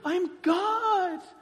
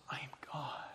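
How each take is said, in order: First: It is said forcefully, with conviction. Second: It is said plainly, without force.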